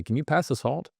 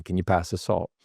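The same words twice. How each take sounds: First: "Can you pass the salt?" pitched high, rising like a question; doubtful, higher asking tune on "pass the salt"; upward inflection. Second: Settled falling tune on "pass the salt"; downward inflection. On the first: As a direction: lift "salt" as if unsure. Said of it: "when you have an upward inflection". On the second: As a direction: drop "salt" like a statement. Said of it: "It's the downward inflection". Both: Shown as a demonstration.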